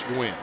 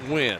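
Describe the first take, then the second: First: The name begins with a 'gw' sound. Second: The name begins with a plain 'w' sound. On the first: The speaker calls it right. "you are correct. It's Gwen" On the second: The speaker calls it wrong. "I'm going to say Win, but that's probably not right"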